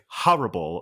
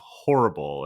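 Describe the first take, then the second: First: It is said in a polished mid-Atlantic accent. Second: It is said in an everyday American accent. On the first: "teaches you to say horrible" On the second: "instead of horrible"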